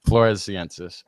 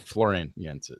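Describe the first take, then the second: First: The word is said in full as Floresiensis. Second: The word is shortened and said as Floriensis. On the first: The speaker calls it right. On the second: The speaker calls it wrong.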